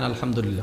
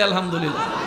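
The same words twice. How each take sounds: First: It is said plainly, without smiling. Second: It is said with a smiling voice.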